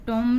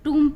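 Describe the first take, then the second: First: The vowel is an 'oh' sound. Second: The vowel is a long 'oo' sound. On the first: The speaker calls it wrong. "टोम नहीं पढ़ेंगे" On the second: The speaker calls it right. "इसको टूम पढ़ते हैं"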